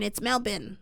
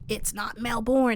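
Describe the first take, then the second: First: Melbourne is said the way locals say it. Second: Melbourne is said the way the speaker says it. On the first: This is the pronunciation people insist on. The speaker calls it right. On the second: This is the pronunciation people correct. The speaker calls it wrong.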